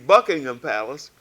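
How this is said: It is said the London way.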